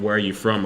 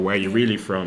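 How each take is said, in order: First: Said in the usual way. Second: "really" leaned on, falling at the end; mild mock interrogation, "really" stressed. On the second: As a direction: press the word "really" like a suspicious asker. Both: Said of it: "asked or questioned of".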